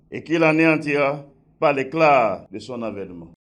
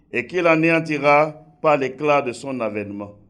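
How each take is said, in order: Both takes have the same delivery.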